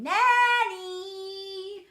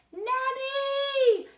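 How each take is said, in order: First: Long sing-out scream, high and loud; child screaming. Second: High, loud, long-held call; tutor screaming. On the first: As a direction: scream the name back, stretching the ending. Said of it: "And then I scream". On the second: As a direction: scream for help, holding the note. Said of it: "and then he screams". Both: A narrator's reading.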